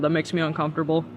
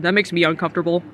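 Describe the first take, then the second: First: A quieter, deadpan echo; softer repeat. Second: Said in the usual way. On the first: Shown as a demonstration. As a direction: say "uncomfortable" again, softer. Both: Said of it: "As a, as a trusted adult".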